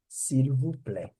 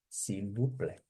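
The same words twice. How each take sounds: First: Said in the usual way. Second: "S'il vous plaît" said much softer; softer please. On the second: Shown as a demonstration. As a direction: drop to a soft, polite "S'il vous plaît". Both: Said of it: "teacher repeats model twice".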